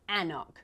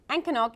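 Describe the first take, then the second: First: No 'k' sound is heard mid-word. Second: A 'k' sound is heard mid-word. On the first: The speaker calls it right. "is actually Annock, which seems weird because why is there an extra C in there?" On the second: The speaker calls it wrong. "So Ancannock is not quite right"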